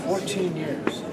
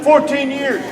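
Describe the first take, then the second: First: Dropped low and quiet; quiet, sunk-down take; low and soft. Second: Raised. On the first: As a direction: bring it down low. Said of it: "Come up, come down, go down, low". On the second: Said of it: "Put inflection in your voice". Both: Shown as a demonstration.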